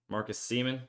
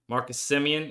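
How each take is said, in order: First: The surname is said as two syllables. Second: The surname is said as three syllables. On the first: The speaker calls it wrong. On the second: The speaker calls it right.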